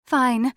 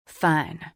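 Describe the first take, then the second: First: High, loud djinn voice; high-pitched, emphatic giving in; grudging djinn. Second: Lightly voiced male figure, grudging; a touch of grudging concession; grudging agreement. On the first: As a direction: concede in a high feminine character voice. Djinn Jezebeth gives in. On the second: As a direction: give in reluctantly, firm voice. Gruff character grudgingly agrees to swear. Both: A narrator's reading.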